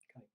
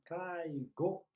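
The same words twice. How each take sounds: First: The final vowel is short. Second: The final vowel is held long. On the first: Care work for elderly people. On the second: A meeting of people, such as a business meeting.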